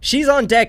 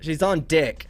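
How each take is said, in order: First: Deck is said with a plain American vowel. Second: Deck is said with a New Zealand-like vowel.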